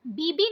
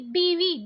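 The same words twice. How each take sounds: First: बीबी with b twice; hard b in both syllables of बीबी; wrong pronunciation. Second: बीवी with v in second syllable; correct pronunciation. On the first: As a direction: say बीबी as "bee-bee". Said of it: "बीबी नहीं बोला जाता". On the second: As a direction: say बीवी as "bee-vee". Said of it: "बीवी बोला जाता है". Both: Shown as a demonstration.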